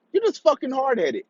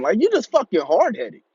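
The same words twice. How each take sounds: First: Jumps higher in disbelief; higher exasperated repeat. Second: Said in the usual way. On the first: Retold or imitated. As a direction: repeat it higher, fed up with him. Ranting at rebellious brother.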